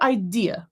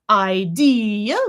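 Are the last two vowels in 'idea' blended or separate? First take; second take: blended; separate. First: The last two vowels run together quickly. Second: The last two vowels are clearly separated.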